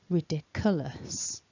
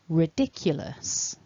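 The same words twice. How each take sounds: First: There is no y sound after the k. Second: There is a y sound after the k. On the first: The speaker calls it wrong. "mispronounce this word as ridiculous, which is not quite right" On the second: The speaker calls it right. "So we're aiming for a y"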